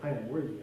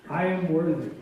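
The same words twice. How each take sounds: First: It is said at a quicker pace. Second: It is said slowly.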